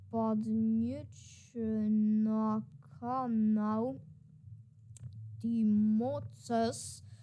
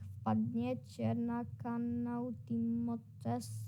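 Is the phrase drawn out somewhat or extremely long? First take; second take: extremely; somewhat. First: The phrase is stretched out even more slowly. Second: The phrase is stretched out slowly. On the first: The speaker calls it right. "jeszcze dłużej" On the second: The speaker calls it wrong. "To on musiał chyba mówić tak"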